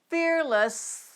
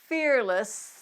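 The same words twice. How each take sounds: The two takes are said the same way.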